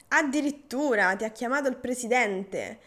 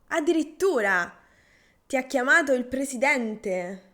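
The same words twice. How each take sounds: First: It sounds sarcastic and mildly ironic. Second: It sounds genuinely surprised and amazed. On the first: The speaker mocks the other's excitement about the news. "con tono sarcastico, cioè un po' ironico" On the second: The speaker is truly impressed by the news. "è una espressione di eh, sorpresa"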